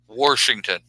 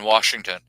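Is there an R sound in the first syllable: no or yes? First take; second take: yes; no. First: It is said with an added R sound. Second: It is said without an R sound.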